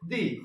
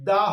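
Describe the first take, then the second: First: The word ends in an 'ee' vowel. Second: The word ends in an 'uh' vowel. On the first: The next word starts with a vowel. "ভাওয়েলের আগে এটা উচ্চারণ হবে দি" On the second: The next word starts with a consonant. "কনসোনেন্টের আগে T H E এর উচ্চারণ দা হবে"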